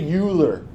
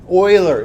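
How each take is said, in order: First: The name is said with an English pronunciation. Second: The name is said with a German pronunciation. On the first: The speaker calls it wrong. "Don't say Euler" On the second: The speaker calls it right. "this is pronounced like that. Euler. It's a German name"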